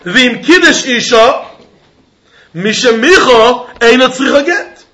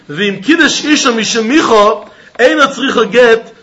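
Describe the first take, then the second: First: There is a pause right after Isha. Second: It runs on with no pause after Isha.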